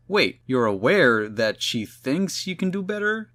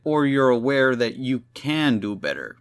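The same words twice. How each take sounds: First: Higher questioning line leaning on "thinks"; puzzled question with weight on "thinks"; stress on THINKS. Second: "can" punched as the contrasting word; puzzled question with weight on "can"; stress on CAN. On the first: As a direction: hit "thinks" hard, as a disbelieving question. Spider-Man questions which meaning is intended. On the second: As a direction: lean hard on "can", questioning. The contrasting second reading of it. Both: Retold or imitated.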